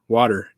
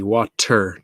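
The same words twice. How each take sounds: First: The T is soft, not aspirated. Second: The T is crisp and aspirated. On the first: "I'm from Michigan, so we would say water" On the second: "pronounce the T and almost aspirate the T"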